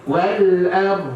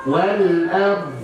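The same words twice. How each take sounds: No difference in how they are said.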